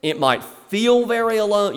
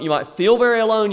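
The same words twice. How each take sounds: First: Said in the usual way. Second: "You might feel very alone" higher, louder and faster, leaning on "very"; "very" pressed, higher and louder; pressing stress on very. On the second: Shown as a demonstration. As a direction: push "very" hard to reach the listener.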